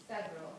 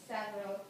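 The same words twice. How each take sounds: The two takes are said the same way.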